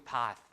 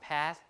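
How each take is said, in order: First: It is said with the British RP vowel. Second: It is said with the American vowel. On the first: This is the later changed pronunciation. "to path, like that" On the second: This is the original older pronunciation. "changed from path"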